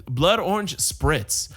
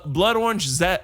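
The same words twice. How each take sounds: First: Slow careful recall. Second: Said in the usual way. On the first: Shown as a demonstration. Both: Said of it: "uh, no, what is".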